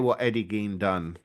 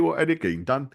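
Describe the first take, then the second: First: It is said in the speaker's ordinary accent. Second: It is said in a put-on Cockney accent.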